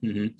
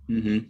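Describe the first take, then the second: Both takes have the same delivery.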